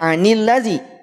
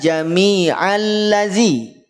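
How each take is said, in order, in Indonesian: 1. Bunyi n menyambung ke kata berikutnya. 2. Tidak ada bunyi n yang menyambung ke kata berikutnya. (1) "dibacanya anil ladzi" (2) "tidak jami'al ladzi"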